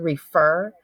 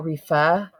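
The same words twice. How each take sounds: First: The R sounds are fully pronounced. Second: The R is dropped, Boston style.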